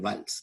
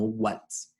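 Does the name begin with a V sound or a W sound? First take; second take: V sound; W sound. First: The name begins with a V sound. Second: The name begins with a W sound. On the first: The speaker calls it right. "se pronuncia como si la W fuera una V" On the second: The speaker calls it wrong. "no Waals"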